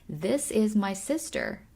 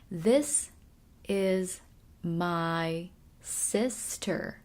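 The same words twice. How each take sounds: First: The sentence is said at normal speed. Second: The sentence is said slowly and carefully.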